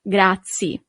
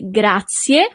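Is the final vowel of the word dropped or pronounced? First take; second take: dropped; pronounced. First: The final vowel is dropped. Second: The final vowel is clearly pronounced. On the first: The speaker calls it wrong. "and not grazie" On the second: The speaker calls it right. "the very important thing is to say grazie"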